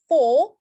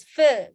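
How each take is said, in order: First: "for" louder with a held O; long O sound. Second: "fur" drawn out on an "uh" vowel; long central vowel. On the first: Teacher comparing the two words, long loud O in "for". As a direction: hold the O in "for". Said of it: "but this one is for". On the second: Teacher comparing the two words, long "fur". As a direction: stretch the neutral vowel in "fur". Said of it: "then this one is fur". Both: Shown as a demonstration.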